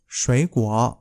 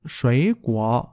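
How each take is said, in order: Both takes have the same delivery.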